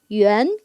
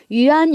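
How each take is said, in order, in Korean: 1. 중국어 원음으로 발음합니다. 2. 영어식으로 읽습니다. 'wee-an'처럼요. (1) "원어민 발음으로 보다 위안" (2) "한어병음을 그치 영어식으로 좀 읽어본 거예요"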